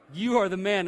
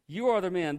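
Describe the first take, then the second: First: Loud, admiring praise, like a buddy's high five; cheering compliment. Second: Loud accusation, weight on are; accusing verdict. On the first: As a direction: cheer him on, you are the man. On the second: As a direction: point the finger, you ARE the man. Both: Shown as a demonstration. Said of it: "And it's not the good way".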